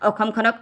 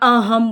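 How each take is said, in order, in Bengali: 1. মধ্যের ব্যঞ্জনটি s ধ্বনি। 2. মধ্যের ব্যঞ্জনটি h ধ্বনি। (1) "অসমখনক অহম বুলি কওঁ" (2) "অসমখনক অহম বুলি কওঁ"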